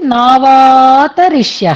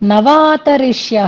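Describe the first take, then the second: First: The first vowel is long. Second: The first vowel is short. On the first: The speaker calls it right. "నా అనేది విడకపోతే నావాతరిష్య అనాలి" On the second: The speaker calls it wrong. "నవాతరిష్య అనేది దోషం అన్నమాట"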